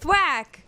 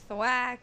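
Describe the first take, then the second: First: It is said with angry force. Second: It is said flatly, without feeling.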